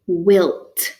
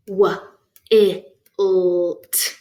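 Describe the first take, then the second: First: Said in the usual way. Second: W, I, L, T as isolated phonemes; chopped into sounds. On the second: Shown as a demonstration. Teacher chopping a word into units, separated phonemes. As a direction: chop it into W, I, L, T. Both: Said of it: "time to do some chopping".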